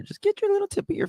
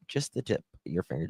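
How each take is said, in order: First: Squeaky demo. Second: Said in the usual way. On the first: Shown as a demonstration. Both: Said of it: "I tell you guys to hit the thumbs up".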